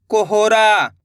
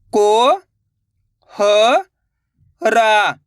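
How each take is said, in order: First: Said in the usual way. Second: कोहरा, drawn out slowly syllable by syllable. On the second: Shown as a demonstration. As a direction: spell out कोहरा, slowly in pieces. (अक्षर-अक्षर धीरे बोलो) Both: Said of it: "तो मिलके बन जाएगा".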